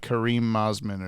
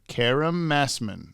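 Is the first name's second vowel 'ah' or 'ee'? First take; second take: ee; ah. First: The first name ends with a long 'eem' sound. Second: The first name ends with a short 'ahm' sound. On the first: The speaker calls it wrong. "I said like Kareem Mosman or something before" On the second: The speaker calls it right. "Let me make sure I pronounce this name right"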